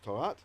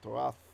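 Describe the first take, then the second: First: The word ends with a plain t sound. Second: The word ends with a th sound. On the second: "even with the ancient pronunciation"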